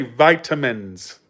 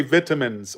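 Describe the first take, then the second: First: "vitamins" with long i, VY-tuh-mins; American pronunciation. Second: "vitamins" with short i, VIT-uh-mins; British pronunciation. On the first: Showing how Americans say it, "vitamins" as VY-tuh-mins. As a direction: open "vitamins" with the sound of "vie". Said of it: "We say vitamins". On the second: Showing how Brits say it, "vitamins" as VIT-uh-mins. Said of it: "They say vitamins". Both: Shown as a demonstration.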